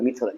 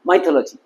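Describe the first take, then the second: First: The first vowel sounds like 'ih'. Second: The first vowel sounds like 'eye'. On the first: The speaker calls it right. "No ওটা মিথোলজি" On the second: The speaker calls it wrong. "আমি অধিকাংশ লোককে বলতে চাই মাইথোলজি"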